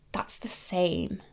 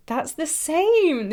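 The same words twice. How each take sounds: First: A slow, awed whisper, almost to herself; stunned whisper. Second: Higher and slower, disbelief bursting out; excited exclaim. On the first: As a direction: breathe it out, slow and hushed. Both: Real, not acted. Stunned at matching lipstick shades.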